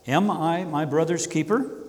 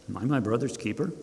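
First: It is asked in a sincere, earnest tone. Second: It is asked in a dismissive, defensive tone.

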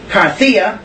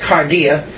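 First: It is said with a non-Erasmian pronunciation. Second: It is said with the Erasmian pronunciation.

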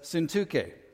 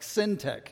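First: The name does not end sounding like tech. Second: The name ends sounding like the word tech. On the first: The speaker calls it right. "But it's Syntyche. So that's how we'll pronounce it" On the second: The speaker calls it wrong. "it does sound like a tech company, like Syntech"

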